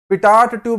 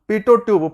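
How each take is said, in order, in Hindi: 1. पहला शब्द लंबी 'taht' आवाज़ पर खत्म होता है। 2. पहला शब्द स्वर पर खत्म होता है, इसमें t नहीं है। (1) "पिटाट ट्यूब नहीं है" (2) "उसका नाम है पीटो ट्यूब"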